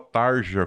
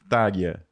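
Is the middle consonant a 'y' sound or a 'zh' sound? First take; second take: zh sound; y sound. First: The middle consonant is a 'zh' sound. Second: The middle consonant is a 'y' sound. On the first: The speaker calls it wrong. "eu passei anos falando o nome da mulher errado. Eu falava Tarja, como se lia" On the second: The speaker calls it right. "o nome dela se pronuncia como [name]"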